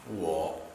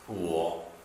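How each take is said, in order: The two takes are said the same way.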